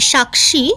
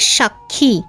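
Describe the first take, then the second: First: The word is said with Sanskrit-style pronunciation. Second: The word is said with everyday Bengali pronunciation. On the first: "উচ্চারণটা এরকম সংস্কৃত করলে ভালো হয়" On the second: "actually বেঙ্গলিতে সাক্ষী"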